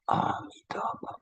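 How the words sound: The name is recited with deep, heartfelt feeling. It comes from a sincere aspiration in the heart. The speaker calls it right. "the sound from the heart"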